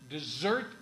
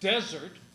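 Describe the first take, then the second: First: The stress is on the second syllable. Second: The stress is on the first syllable. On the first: Something eaten at the end of a meal. "the second syllable" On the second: A word with a different meaning. "begins with the stressed syllable followed by an unstressed syllable"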